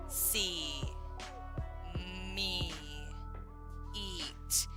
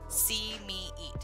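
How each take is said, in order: First: The phrase is read slowly, word by word. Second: The phrase is read smoothly at normal speed. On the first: "not just see me eat" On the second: "in a normal fashion"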